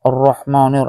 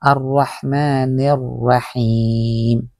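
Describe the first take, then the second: First: "Arrahmanir" mumbled, the sounds muddy; mock wrong pronunciation. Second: "Arrahmanirrahim" slow and clear, with a breathy ha; the right way, slowly; correct pronunciation. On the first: Teacher mocks a student's muddled "Arrahmanir". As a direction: imitate a bad, muddled reading. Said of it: "Para kang ngungo". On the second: Teacher shows students the clear "Arrahmanirrahim". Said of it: "dito nyo po yung banggitin". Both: Shown as a demonstration.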